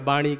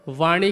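First: The word begins with a b sound. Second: The word begins with a v sound. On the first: This is how people commonly say it. "या बाणी कहते हैं" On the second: This is the standard form. "वाणी की जगह पर"

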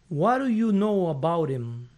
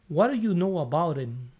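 First: The words run together with reduced sounds. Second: The words run together with reduced sounds.

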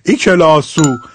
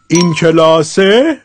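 First: It ends in an 'o' vowel, Shirazi style. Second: It ends in an 'e' vowel, standard Persian.

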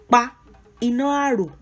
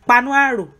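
First: It is said slowly, each word kept apart. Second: It is said fast, the words run together.

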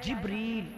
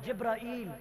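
First: The name is said with two syllables. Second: The name is said with three syllables. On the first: The speaker calls it right. "लफ्ज इसम असल क्या है जिब्रील" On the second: The speaker calls it wrong. "जिब्राईल लफ्ज गलत है"

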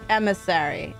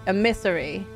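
Both takes have the same delivery.

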